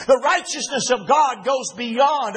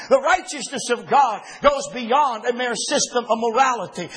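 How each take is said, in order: First: Slower, leaning on God; slow down and press the word God; restated with God underlined; stress on God. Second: Said in the usual way. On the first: Shown as a demonstration.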